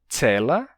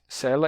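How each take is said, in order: First: The word begins with a ts sound. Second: The word begins with a plain s sound. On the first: This is the older pronunciation. "Antes você tinha as pronúncias cela e sela. E a pronúncia do som de ts" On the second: This is the modern pronunciation. "Hoje a gente diz cela e sela"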